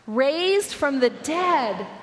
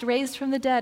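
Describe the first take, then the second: First: It is read with strong, energetic emphasis. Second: It is read flatly, without special weight. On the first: It is an astonishing claim worth pausing over. The speaker calls it right. "stop and think about what that means" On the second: It is just a routine line in a letter. The speaker calls it wrong. "we tend to read it like"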